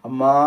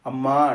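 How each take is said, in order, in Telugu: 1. ఇది సాగదీసిన, బతిమాలే పిలుపు. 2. ఇది బలహీనమైన, ఆకలితో ఉన్న మూలుగు. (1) "బయట బిచ్చగాడొచ్చాడనుకోండి, వాడేమంటాడు?" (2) "ఆకలయిందనుకోండి"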